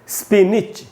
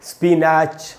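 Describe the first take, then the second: First: The second syllable has a short i vowel: nitch. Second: The second syllable has an open vowel: natch. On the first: The speaker calls it right. "नैच नहीं बन के निच बनता है" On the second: The speaker calls it wrong. "जैसा ये लिखा हुआ है इसका उच्चारण होना चाहिए"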